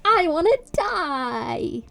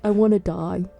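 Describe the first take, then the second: First: It is said in a cheerful, upbeat tone. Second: It is said in a gloomy, depressed tone.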